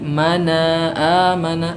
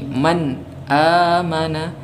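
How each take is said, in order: First: The first word ends with a vowel after n. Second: The first word ends on n, with no vowel. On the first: The speaker calls it wrong. "bukan lagi mana amana" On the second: The speaker calls it right. "vokalnya kita matikan"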